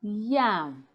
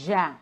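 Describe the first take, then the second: First: "yam" drawn out with a clear y glide; slow "yam", y first; correct pronunciation. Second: "ja" as yam begun with zh; buzzing onset on "ja", no y; wrong pronunciation. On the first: Student politely correcting a speaker, careful articulation. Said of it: "it's pronounced yam". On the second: Teacher showing what not to say, mispronounced word. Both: Shown as a demonstration.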